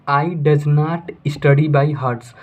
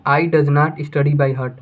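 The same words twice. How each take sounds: First: The final s of hearts said clearly. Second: Heart said with no final s. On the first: Teacher reads the wrong sentence, ending on hearts. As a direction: say it as hearts, with the plural s. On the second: Teacher corrects the sentence, ending on heart. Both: Shown as a demonstration.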